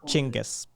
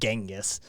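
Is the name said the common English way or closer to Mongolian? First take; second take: Mongolian; English. First: The name is said closer to the Mongolian way. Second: The name is said the common English way. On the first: The speaker calls it right. "It's closer to Chinggis" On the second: The speaker calls it wrong. "It isn't Genghis"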